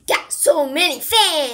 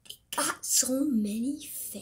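First: Louder. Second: Mumbling. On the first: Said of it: "I still don't hear you". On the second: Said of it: "When you talk like that, no one can hear you". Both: Real, not acted.

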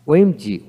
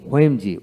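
First: ওএমজি said "wemji", plain w first. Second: ওএমজি said "hwemji"; sounded H. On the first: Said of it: "আমেরিকানে অ উচ্চারিত". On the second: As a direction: begin ওএমজি with an audible h. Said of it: "ব্রিটিশে হ উচ্চারিত হয়". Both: Shown as a demonstration.

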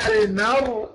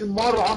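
First: المرعى with thin م and light ع; light meem. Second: المرعى with dark, back vowels on م and ع; wrongly heavy meem. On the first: Teacher modelling correct المرعى, light م. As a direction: keep both م and ع light in المرعى. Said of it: "نقول إيه؟". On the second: Teacher showing the mistake, المرعى thick and dark. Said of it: "ما نخليش الميم مفخمة". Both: Shown as a demonstration.

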